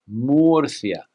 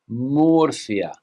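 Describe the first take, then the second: First: It is said with a Spanish accent. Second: The same.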